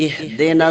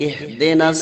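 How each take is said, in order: No difference in how they are said.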